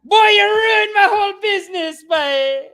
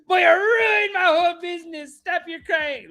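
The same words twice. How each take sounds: First: Put-on high, loud shouting West Indian accent; furious West Indian owner. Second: Put-on high, wailing West Indian accent, half crying; mock-wailing West Indian owner. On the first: Owner screaming at the crying kid, loud West Indian accent. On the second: Owner wailing at the injured kid, mock sob in West Indian accent. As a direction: whine the blame in a mock sob. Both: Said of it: "just ripped him".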